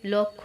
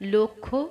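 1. প্রথম স্বরধ্বনিটি একটি খোলা 'aw' ধ্বনি। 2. প্রথম স্বরধ্বনিটি একটি বদ্ধ 'o' ধ্বনি। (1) "এগুলো উচ্চারণে কি তবে লক্ষ" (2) "লয়ের সাথে ওকার"

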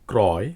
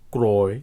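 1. প্রথম স্বরধ্বনিটি একটি খোলা 'aw' ধ্বনি। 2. প্রথম স্বরধ্বনিটি একটি বদ্ধ 'o' ধ্বনি। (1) "এগুলো ওকারান্ত হবে না" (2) "সূত্রানুযায়ী এগুলো হওয়ার কথা ছিল ক্রয়"

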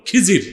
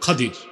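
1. নামটি 'j' উচ্চারণে বলা হয়। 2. নামটি 'a' ও 'd' উচ্চারণে বলা হয়। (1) "এটা ভুল উচ্চারণ" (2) "শুদ্ধ উচ্চারণ কি?"

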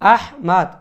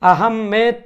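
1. নামটি শেষে একটি স্পষ্ট, খোলা 'mad' ধ্বনি দিয়ে শেষ হয়। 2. নামটি শেষে একটি 'med' ধ্বনি দিয়ে শেষ হয়। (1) "সঠিক আরবি যে শব্দ উচ্চারণ সেটা হলো আহমাদ" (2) "আহমেদ ... উচ্চারণ করার কোনো সুযোগ নেই"

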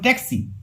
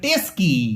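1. k ধ্বনিটি s ধ্বনির আগে আসে। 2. s ধ্বনিটি k ধ্বনির আগে আসে। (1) "মূল কথা পড়ে ট্যাক্সি" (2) "দন্তস আগে চলে আসে, ক পরে চলে যায়"

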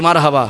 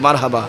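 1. শব্দটি জোরে বলা হয়েছে। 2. শব্দটি আস্তে ও নিচু স্বরে বলা হয়েছে। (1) "এবার জোরে বলি" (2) "আস্তে করে বলি"

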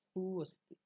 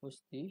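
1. এটি আলাদা 'su' দিয়ে শুরু হয়, তারপর 'a'। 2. এটি এক দলে শুরু হয়, 'su-a' ছাড়া। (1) "সংস্কৃত উচ্চারণ হবে সুঅস্তি" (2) "আমরা বাংলায় যে বলি স্বস্তি"

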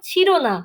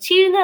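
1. এটি দুটি শব্দ হিসেবে বলা হয়, chhiro na। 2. এটি একটি শব্দ হিসেবে যুক্তভাবে বলা হয়, chhirna। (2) "ছিড়না না তো বাবা"

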